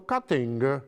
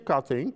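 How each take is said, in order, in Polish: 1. Słowo kończy się wyraźnym dźwiękiem g. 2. Słowo kończy się bez wyraźnego dźwięku g. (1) "tylko cutting. G" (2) "nie cutting"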